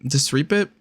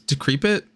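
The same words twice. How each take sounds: First: "Decrepit" misread as dis-REEP-it, questioning; "Decrepit" as dis-reepit, unsure; soft C attempt. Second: "decrepit" with a K sound, questioning; "decrepit" said with hard C, unsure; hard C pronunciation. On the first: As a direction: try "Decrepit" with an S for the C. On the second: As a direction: try "decrepit" as de-KREP-it. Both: Real, not acted. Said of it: "D E C R E P I T".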